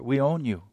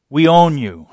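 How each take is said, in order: First: It is said in a warm, tender tone. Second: It is said in a harsh, commanding tone. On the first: The speaker promises to love and protect the listener. "They say it with a totally different flair" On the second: The speaker claims control over the listener. "That's what the army says when you enlist"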